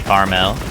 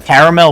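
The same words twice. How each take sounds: First: The word is said quickly and shortened. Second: The word is said fully and carefully. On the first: "if I'm like speaking really fast, I just say caramel" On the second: "I think I say caramel more often"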